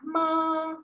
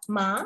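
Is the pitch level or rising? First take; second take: level; rising. First: The pitch stays high and level. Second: The pitch rises upward. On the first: "datar dan tinggi" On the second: "naik seperti orang bertanya"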